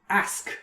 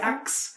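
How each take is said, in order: First: The word is said in a plain, ordinary accent. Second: The word is said with an 'aks' sound.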